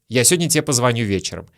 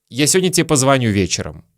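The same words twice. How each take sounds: The two takes are said the same way.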